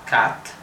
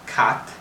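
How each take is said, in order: The two takes are said the same way.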